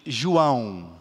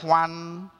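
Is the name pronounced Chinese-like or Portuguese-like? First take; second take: Portuguese-like; Chinese-like. First: The name is pronounced in a Portuguese way. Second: The name is pronounced in a Chinese-like way. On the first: The speaker calls it right. "it's João" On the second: The speaker calls it wrong. "like if we did in Chinese"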